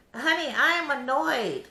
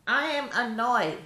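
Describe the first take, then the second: First: Sassy. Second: Drawn out, each word weighted; slower emphatic. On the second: Vlogger repeating to viewers that she's annoyed, slower and emphatic. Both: Real, not acted.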